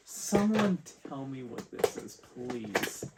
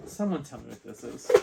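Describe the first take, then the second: First: Insistent plea. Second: Said in the usual way. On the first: Real, not acted. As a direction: plead for an answer, pitched up, then drop on please. Repeats question, pleading in disbelief.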